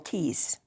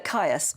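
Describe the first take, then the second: First: The name is said as one syllable. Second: The name is said with two syllables. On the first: "in sort of classical terms, you'd call it Keys" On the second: "It's either Caius or Keys"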